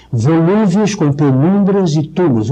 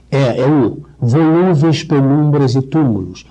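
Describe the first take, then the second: First: "volúveis", "penumbras", "túmulos" each landing on the U; rhyme words stressed. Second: Slow, stressing the U in "volúveis", "penumbras", "túmulos"; assonance stressed. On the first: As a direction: hit the U in every rhyme word. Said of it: "O que é que rima aqui?". (ênfase no U das rimas) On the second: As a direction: stretch each U vowel so the rhyme shows. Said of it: "a assonância". (ênfase lenta no U de "túmulos") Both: Shown as a demonstration.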